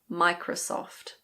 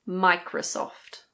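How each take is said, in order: No difference in how they are said.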